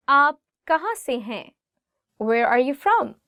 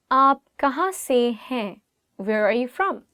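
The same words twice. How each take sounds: The two takes are said the same way.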